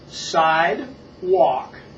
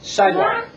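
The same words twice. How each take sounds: First: It is said slowly, in two separate parts. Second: It is said fast, as one blended word.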